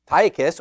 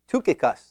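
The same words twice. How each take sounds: First: The first vowel is a long 'eye' sound. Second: The first vowel is a rounded 'u' sound. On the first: "Is it a long I" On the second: "in the Greek, it is a U sound, an upsilon, so it's really"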